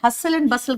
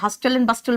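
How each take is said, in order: First: The t sound is silent in both words. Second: A t sound is pronounced in both words. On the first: The speaker calls it right. "बेटा हसल and बसल कहते हैं" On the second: The speaker calls it wrong. "हस्टल and बस्टल मत बोल देना"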